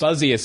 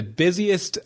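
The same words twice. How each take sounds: First: "buzziest" said with a buzzing z, as buzz-ee-est; "buzziest" fixed to buzz-ee-est; corrected word. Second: "busiest" said as bizzy-est, with a plain s; "busiest" read wrongly as bizzy-est; misread word. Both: Real, not acted.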